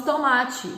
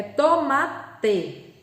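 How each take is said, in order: First: "tomate" ending in a chee sound; "tomate" as in casual speech, final "te" turned to tchi; everyday spoken pronunciation. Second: "tomate" split as to-ma-TE, final teh; "tomate" syllable by syllable, no chee sound at the end; careful spelling pronunciation. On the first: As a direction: say "tomate" as to-MA-tchi, run together. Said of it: "no falar, nós falamos tomate". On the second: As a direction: sound out "tomate" slowly, ending in a clear "te". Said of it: "a palavra correta é tomate". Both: Shown as a demonstration.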